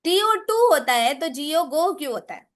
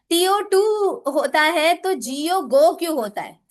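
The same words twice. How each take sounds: First: टीओ pushed, falling tune; stress on टीओ. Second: टू pushed, falling at the end; stress on टू. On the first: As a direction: lean on the spelling टीओ. (टीओ पर ज़ोर देकर सवाल) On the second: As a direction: lean on टू in the question. (टू पर ज़ोर देकर सवाल) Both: Retold or imitated. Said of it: "वो उसमें बोलता है".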